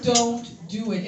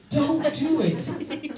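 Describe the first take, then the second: First: Said in the usual way. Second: Drawn-out "Don't do it." rising at the end; slow warning. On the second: Shown as a demonstration. Warning the guys off a topic, slow drawn-out caution. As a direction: stretch "Don't" slowly like a warning.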